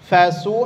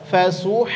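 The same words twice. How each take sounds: The two takes are said the same way.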